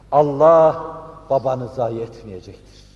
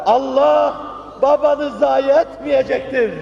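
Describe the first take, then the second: First: Said in the usual way. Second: High, loud, drawn-out declaration; impassioned proclamation. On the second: Acted. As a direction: proclaim it slowly at full force. Consolation repeated as an impassioned proclamation. (haykırarak, coşkuyla ilan)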